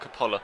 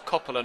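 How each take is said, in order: First: The stress is on the second syllable. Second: The stress is on the first syllable. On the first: The speaker calls it wrong. "not the second" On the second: The speaker calls it right. "the emphasis is on the first O"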